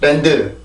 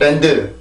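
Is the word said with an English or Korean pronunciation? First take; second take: Korean; Korean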